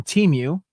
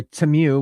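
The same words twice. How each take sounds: First: "Temu" said as TEE-mew; long ee in the first syllable of "Temu"; alternative pronunciation. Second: "Temu" said as tuh-MEW; short, unstressed first syllable in "Temu"; alternative pronunciation. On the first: Streamer naming where the mask is from, "Temu" as TEE-mew. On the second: Collector offering another way to say it, "Temu" as tuh-MEW. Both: Shown as a demonstration. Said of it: "whichever, how you th-, say it".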